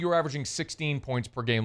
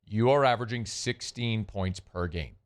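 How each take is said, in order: First: It is said at normal speed. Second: It is said slowly.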